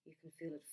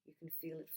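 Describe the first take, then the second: No difference in how they are said.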